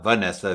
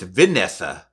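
First: The first syllable does not sound like 'vin'. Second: The first syllable sounds like 'vin'. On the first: The speaker calls it wrong. "not Vanessa" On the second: The speaker calls it right. "It's Vanessa"

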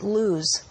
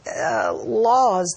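First: The vowel sounds like 'oo' in moon. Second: The vowel sounds like 'aw' in law.

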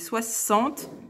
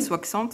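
First: The middle consonant is pronounced as s. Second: The middle consonant is pronounced as ks. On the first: The speaker calls it right. "c'est 60, il se prononce ce" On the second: The speaker calls it wrong. "C'est pas 60, pas que ce"

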